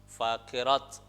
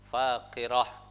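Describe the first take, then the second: First: The word ends with a t sound. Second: The word ends with an h sound. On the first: The speaker calls it wrong. "Jangan sampai terjadi bacaan misal" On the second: The speaker calls it right. "tetapi menjadi suara hak"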